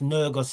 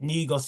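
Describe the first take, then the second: First: The word is pronounced the Amharic way. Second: The word is pronounced the English way. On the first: "it's pronounced Nergus in the Amharic" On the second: "we pronounce it Negus in the English"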